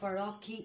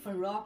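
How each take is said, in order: First: The word ends with a k and ee sound. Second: The word ends with a hard k sound. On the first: "অথবা ফারকি এরকম টাইপের বলে দিতে পারি" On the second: "আমরা এটাকে ভুলে অনেকেই ফারক"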